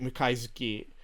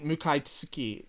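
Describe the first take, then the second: First: The third syllable is said with a 'zu' sound. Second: The third syllable is said with a 'tsu' sound. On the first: "I'm pronouncing it Mukaizuki" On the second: "you've written Mukaitsuki"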